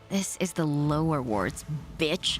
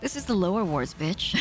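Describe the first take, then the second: First: The last word is said with emphasis. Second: The last word is sighed without emphasis.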